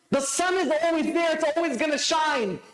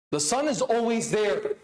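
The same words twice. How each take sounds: First: The sun is always there, pitched higher with a lift on is; rising preacher's emphasis driving it home; preaching emphasis. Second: Said in the usual way. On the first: Acted. Repeated line, preached up.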